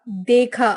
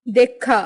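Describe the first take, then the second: First: Said in the usual way. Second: Short vowel, doubled KH in देखा; western UP pronunciation. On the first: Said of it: "Hindi उच्चारण". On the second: Shown as a demonstration. Teacher showing western UP speech, देखा as dekkha. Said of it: "पश्चिमी उत्तर प्रदेश उच्चारण".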